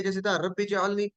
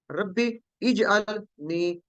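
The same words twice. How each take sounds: First: रब्बी जअलनी run together as one phrase; joined reading. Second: Slow रब्बी इजअलनी with the इ sounded after a break; separated reading. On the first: Teacher showing students the joined reading of रब्बी जअलनी. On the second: Teacher showing students how to read रब्बी इजअलनी separately, slowly. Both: Shown as a demonstration. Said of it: "हम अलहदा करें तो पढ़ते थे".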